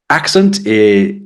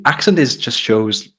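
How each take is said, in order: First: Accent drawn out, higher and louder; Accent stretched and lifted like a heading; emphasis on accent. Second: Said in the usual way. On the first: Shown as a demonstration. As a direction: lean hard on accent, slowly.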